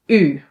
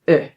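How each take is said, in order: First: The vowel is held long. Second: The vowel is cut short. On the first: "long pronunciation" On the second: "we can also pronounce them short"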